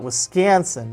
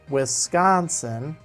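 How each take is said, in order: First: The middle syllable has a flat vowel like scan. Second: The middle syllable is stressed with an open ah vowel. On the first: "Wiscan, Scan, Scan" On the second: "I put extra emphasis on the con... it's the ah that a doctor would tell you to say"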